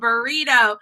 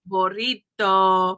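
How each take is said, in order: First: It is said with an American accent. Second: It is said with a Spanish accent.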